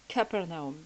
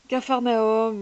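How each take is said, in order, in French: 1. La deuxième syllabe se prononce 'per'. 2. La deuxième syllabe se prononce 'far'. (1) "mais ça se prononce Capernaum" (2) "c'est Caf- Capharnaüm"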